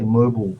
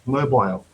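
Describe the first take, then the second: First: The last syllable has a reduced vowel, no 'eye'. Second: The last syllable has a clear 'eye' vowel.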